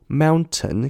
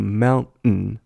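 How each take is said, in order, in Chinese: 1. 中间的 t 清楚地发出来。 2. 中间的 t 被吞掉了。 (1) "我们会说mountain" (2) "当你念快的时候会变mountain"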